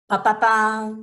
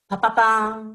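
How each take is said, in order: Both takes have the same delivery.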